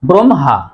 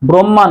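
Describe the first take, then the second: First: The h sound comes after the m. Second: The h sound comes before the m. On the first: The speaker calls it right. "শুদ্ধ উচ্চারণ হবে" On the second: The speaker calls it wrong. "নয়"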